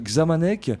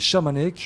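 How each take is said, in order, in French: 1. Le nom ne commence pas par un son 'sh'. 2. Le nom commence par un son 'sh'. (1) "Il y en a qui prononcent Xamanek" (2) "ils m'ont dit un jour c'était Chamanek"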